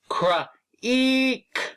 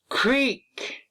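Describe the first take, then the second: First: The word is split into separate sound parts. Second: The word is said smoothly as one unit. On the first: "Let's sound it out" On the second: "What's the word?"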